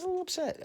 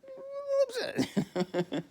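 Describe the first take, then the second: First: Much higher, leaning on little; high sarcastic understatement; squeaky mock understatement. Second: Much higher and slow, laughing in a fake cry; squealing laugh-cry understatement; mock whimper through laughter. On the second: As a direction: wail a little upset while cracking up.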